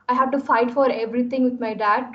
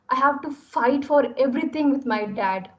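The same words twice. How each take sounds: First: It is said flatly, with little variation. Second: It is said with varied tone, speed and volume.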